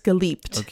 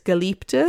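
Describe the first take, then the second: First: The word ends on a consonant, without vowel. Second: The word ends with an extra final vowel. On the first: This is how it sounds when spoken. "if you were to pronounce it and not like speaking, not singing" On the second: This is how it sounds when sung. "sometimes when you sing it, it's geliebte"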